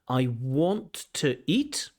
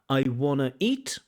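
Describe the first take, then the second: First: Want to is said fully, every sound clear. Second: Want to is squeezed together into wanna.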